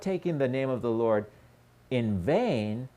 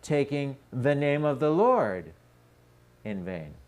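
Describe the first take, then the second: First: The stress falls on the word vain. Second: The stress falls on the word name. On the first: The wrong is in making an empty promise. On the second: The wrong is in the formula used for the vow.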